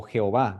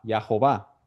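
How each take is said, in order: First: "Jehová" with an opening "he" sound; derived pronunciation. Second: "Yahová" with an opening "ya"; constructed pronunciation. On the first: Teacher showing the form that came from Yahová, pronounced "Jehová". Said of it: "De ahí viene la palabra Jehová". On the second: Teacher showing the word built from added vowels, pronounced "Yahová". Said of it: "construyeron el, eh, eh, la palabra". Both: Shown as a demonstration.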